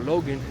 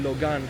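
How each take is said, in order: First: Logan is pronounced with an English pronunciation. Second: Logan is pronounced with a Romanian pronunciation. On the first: "in English, you can call it Dacia Logan" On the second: "but we call it Logan here in, in Romania"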